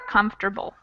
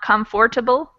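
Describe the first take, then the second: First: It is said with only three syllables. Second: It is said with all four syllables. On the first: The speaker calls it right. "we cut out one of the syllables" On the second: The speaker calls it wrong. "Not comfortable"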